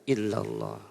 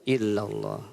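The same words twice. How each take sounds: No difference in how they are said.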